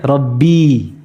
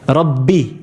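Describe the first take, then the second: First: The word ends in a long i vowel. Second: The word ends in a short i vowel. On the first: "with a ya at the end" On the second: "Kasra. What happened to the ya? ... It's gone"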